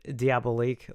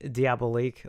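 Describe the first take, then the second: First: It is said like the movie title. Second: The same.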